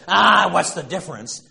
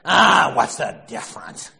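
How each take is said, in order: First: Mock Archie shout. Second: Loud dismissive bark; gruff shout. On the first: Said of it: "when Archie Bunker says". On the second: Retold or imitated. Archie shouting at Edith over his shoes. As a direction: brush her off with a shout.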